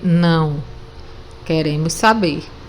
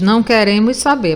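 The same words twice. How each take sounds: First: There is a pause after não. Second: It is said with no pause after não.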